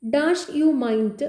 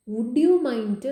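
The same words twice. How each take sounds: First: Slow, drawn-out reading with the blank spoken as dash; slow quiz-question reading; reading the blank slowly. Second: Said in the usual way. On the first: Shown as a demonstration. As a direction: read the gap word by word, very slowly. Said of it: "Dash you mind waiting എന്ന് പറയുമ്പോൾ". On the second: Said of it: "plus verb plus I N G form ആണ്".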